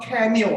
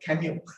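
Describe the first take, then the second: First: The first syllable sounds like 'care'. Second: The first syllable sounds like 'cam'. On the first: The speaker calls it wrong. "not cameo, huh? Not C A R E M E O" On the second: The speaker calls it right. "the word cameo"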